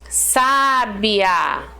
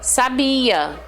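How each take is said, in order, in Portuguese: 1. A força está na primeira sílaba. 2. A força está na sílaba do meio. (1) "uma pessoa sábia" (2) "Eu leio normal, não tem nenhum acento"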